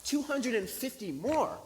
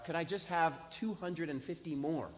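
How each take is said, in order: First: High, loud, drawn-out disbelieving question; incredulous echo. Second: Said in the usual way. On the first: Retold or imitated. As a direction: repeat it back in exaggerated astonishment. Astonished echo of the request.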